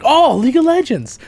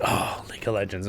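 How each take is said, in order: First: High, loud, gushing excitement; thrilled fan reaction. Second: Low, subdued groan of recognition; unimpressed reaction. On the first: Other people hearing League of Legends, thrilled. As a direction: squeal it like a delighted fan. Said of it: "other people are like". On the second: People reacting to hearing League of Legends, unimpressed. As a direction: sigh it out quietly, underwhelmed. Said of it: "People are probably like". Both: Retold or imitated.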